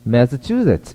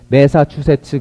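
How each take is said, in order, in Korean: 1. 센 강세는 뒤쪽에, 약한 강세는 앞쪽에 와요. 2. 음절을 고르게 읽고, 강세는 없어요. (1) "이렇게 읽는단 말이에요. 뒤쪽에 큰 강세 있고 앞에 작은 강세" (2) "그래요?"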